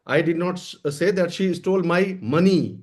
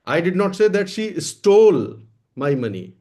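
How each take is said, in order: First: The stress falls on the word money. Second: The stress falls on the word stole. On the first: She stole something other than money. "कोई और चीज चुराई है।" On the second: She took or borrowed it rather than stealing it. "मैंने ये नहीं कहा कि उसने चुराया है, ले लिया है, मांग लिया है, चुराया नहीं है।"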